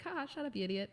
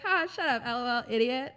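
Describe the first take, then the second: First: Higher, laughing through a teasing insult; playful laughing jab; joking laugh. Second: Much higher and louder, cackling the insult; hammed-up laughing taunt; loud laughing jab. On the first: Retold or imitated. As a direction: tease him with a laugh. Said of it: "And I'm like". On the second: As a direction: shout the joke through laughter. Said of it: "I'm like".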